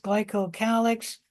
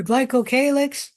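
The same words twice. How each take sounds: First: Glycocalyx with a short A, "KAL-icks"; glycocalyx, third syllable like "pal", not "pay"; alternative pronunciation. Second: Glycocalyx with a long A, "KAY-licks"; glycocalyx, third syllable rhyming with "day"; first pronunciation. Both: Shown as a demonstration. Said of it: "also pronounced glycocalyx".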